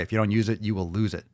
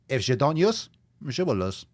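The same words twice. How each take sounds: First: Said in the usual way. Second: Playful mock German accent, rising on "use". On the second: Host repeating his fitness motto in mock German accent.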